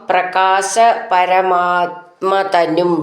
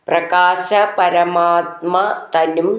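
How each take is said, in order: The two takes are said the same way.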